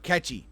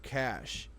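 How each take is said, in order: First: The word is said as two syllables. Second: The word is said as one syllable. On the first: The speaker calls it wrong. "I wanted to pronounce it wrong" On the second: The speaker calls it right. "I wanted to pronounce it wrong and I didn't right up front"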